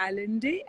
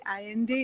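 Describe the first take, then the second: First: Said in the usual way. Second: Allende with the double l as a y sound; Spanish pronunciation. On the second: Shown as a demonstration. Guest correcting how she says the author's name, Allende pronounced with a y sound. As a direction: say Allende as "eye-EN-day". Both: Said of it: "it's pronounced".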